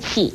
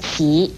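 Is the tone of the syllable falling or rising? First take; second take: falling; rising. First: The syllable is said with a falling tone. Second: The syllable is said with a rising tone. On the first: "四声气" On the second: "二声齐"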